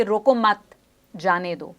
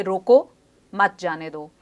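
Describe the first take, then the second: First: "रोको मत" together, then a pause, then "जाने दो"; pause after मत. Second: "रोको", then a pause, then "मत जाने दो" together; pause after रोको. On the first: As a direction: join "रोको मत" firmly, break, then let "जाने दो" fall. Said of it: "इसको इस तरीके से समझें". ("रोको मत" एक साथ, ठहराव, फिर "जाने दो") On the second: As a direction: break right after a raised "रोको", run "मत जाने दो" as one phrase. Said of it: "इस चीज़ को इस तरह समझें". ("रोको" के बाद ठहराव, फिर "मत जाने दो" एक साथ) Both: Shown as a demonstration.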